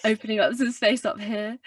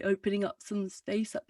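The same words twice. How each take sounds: First: Low-larynx voice with added brightness; a bit brighter, still resonant; brightened low larynx. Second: Dull, lowered-larynx tone; muffled, yawny resonance; muffled low larynx. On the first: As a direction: open space up top to brighten the tone. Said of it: "try and brighten it a bit". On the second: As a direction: speak with the larynx held down. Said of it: "quite muffled and I don't sound very bright". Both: Shown as a demonstration.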